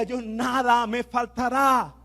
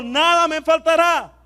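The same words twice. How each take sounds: First: Slow declaration. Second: Declared high and loud; a louder, higher call-and-response line; louder repeat. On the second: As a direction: shout it out to the church. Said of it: "Vamos a decirlo de nuevo". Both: Shown as a demonstration.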